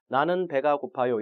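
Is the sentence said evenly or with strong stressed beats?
evenly. The syllables are said evenly without strong stress. The speaker calls it right. "이러지"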